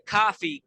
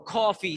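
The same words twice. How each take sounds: First: Its first vowel matches the vowel in got. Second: Its first vowel matches the vowel in saucy. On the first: "got me, probably, choppy" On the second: "saucy, bossy"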